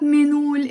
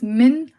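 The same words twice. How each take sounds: First: منول run together as one word, "menoul"; the mistaken "menoul" for منول, no break; wrong pronunciation. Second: منقول split as "min... oul"; correct pronunciation. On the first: Teacher showing learners the mistake, منول blurred into one word. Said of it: "it's not منول". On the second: Teacher correcting learners, منقول carefully split in two. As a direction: clear "min", break, long "oul" in منقول. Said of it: "it's منقول". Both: Shown as a demonstration.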